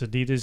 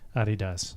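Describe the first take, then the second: First: It is said with the American pronunciation. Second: It is said with the original, non-American pronunciation. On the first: This is how Americans say the brand. "So it's Adidas in America" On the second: This is how everyone outside America says the brand. "Everybody else calls it uh, Adidas, which is the proper name"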